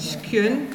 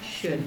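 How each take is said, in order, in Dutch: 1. Het woord begint met een sk-klank. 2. Het woord begint met een sh-klank. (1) "Dus niet skun" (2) "maar schön"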